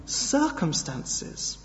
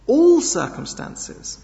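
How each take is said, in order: First: Said in the usual way. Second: All sung out high and slow; stress on All. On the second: Shown as a demonstration. Preacher driving home All to the church, emphatic. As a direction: lean hard on All, slowly.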